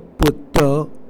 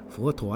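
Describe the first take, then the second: First: It is read with the Hokkien pronunciation. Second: It is read with the Mandarin pronunciation.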